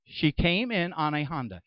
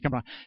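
First: It is said slowly. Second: It is said fast.

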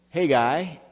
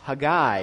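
First: The stress is on the first syllable. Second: The stress is on the last syllable. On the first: This is the usual American pronunciation. "on the front syllable like we usually do in America" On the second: This is the Hebrew pronunciation. "with the Hebrew way of putting the accent on the end syllable"

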